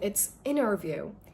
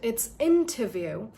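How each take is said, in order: First: It is said in an American accent. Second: It is said in a British accent. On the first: "in American accent" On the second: "in British accent"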